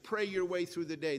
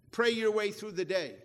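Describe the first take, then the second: First: Said in the usual way. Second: "Pray your way through the day" said louder, pray hit hard, falling at the end; emphatic slogan. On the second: Shown as a demonstration. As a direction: proclaim it like a rallying cry to the congregation. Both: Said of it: "that was how he'd close every one of his message".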